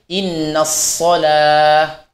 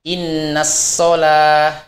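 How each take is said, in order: First: The s is heavy, with the tongue root raised. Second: The s is plain and light. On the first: The speaker calls it right. "Itu harus mengangkat pangkal lidah kita" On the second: The speaker calls it wrong. "tidak boleh dibaca"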